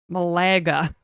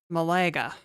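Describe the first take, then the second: First: It is said with a Spanish accent. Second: It is said with an English accent.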